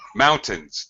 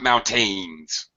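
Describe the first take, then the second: First: The stress is on the first syllable. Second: The stress is on the second syllable. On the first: The speaker calls it right. "First syllable stress" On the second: The speaker calls it wrong. "not mountains"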